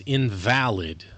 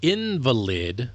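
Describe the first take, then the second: First: In-VAL-id, stress on the middle of "invalid"; second-syllable stress. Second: IN-valid, stress on the start of "invalid"; first-syllable stress. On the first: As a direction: slowly say "invalid" as in-VAL-id, meaning not valid. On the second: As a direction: slowly say "invalid" as IN-vuh-lid, the sick person. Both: Shown as a demonstration. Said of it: "has different emphasis".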